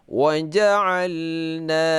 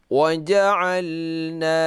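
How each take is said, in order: The two takes are said the same way.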